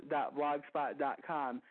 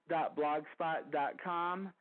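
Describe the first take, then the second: No difference in how they are said.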